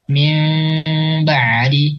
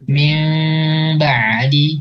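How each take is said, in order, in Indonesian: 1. Bunyi m ditahan dengan sedikit celah di bibir. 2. Bunyi m ditahan dengan sedikit celah di bibir.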